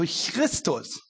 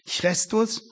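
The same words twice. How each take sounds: First: The first vowel sounds like i. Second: The first vowel sounds like e. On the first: "wurde seinerzeit oft ausgesprochen wie I, also Christus" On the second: "der griechische Buchstabe Eta"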